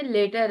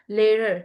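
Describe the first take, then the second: First: LATER in a Pakistani accent, with a clear hard T. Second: LATER with the T softened to a tongued R-like sound; actual English accent. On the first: Teacher showing students the local way, LATER in Pakistani accent. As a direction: say LATER the Pakistani way, T fully sounded. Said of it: "अगर Pakistani accent में later है". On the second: Teacher modelling the actual accent for students, LATER with a softened T. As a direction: fold the tongue on LATER, no hard T. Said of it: "जो actual accent है उसमें क्या होगा". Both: Shown as a demonstration.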